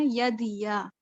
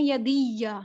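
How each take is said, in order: First: یدیا with a single, plain یا, no doubling; یدیا said normally, single یا. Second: یدیا with a doubled, stressed یا; یدیا with a shadda added to یا; wrong doubled ya. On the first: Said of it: "normal". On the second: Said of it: "یہ آپ نے اس کو غلط پڑھ دیا". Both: Shown as a demonstration.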